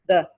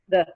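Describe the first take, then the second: Both takes have the same delivery.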